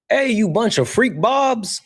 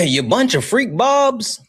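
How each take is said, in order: First: High mock impression of a streamer friend; squeaky teasing impersonation, much higher; imitating Solid. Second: High mock impression, repeated louder; imitating Solid. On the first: Streamer mimics a friend greeting chat, mock high voice. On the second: Streamer repeats friend's catchphrase for chat, high mock voice. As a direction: pitch it way up like the friend. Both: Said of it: "That's, that's how he, he says it".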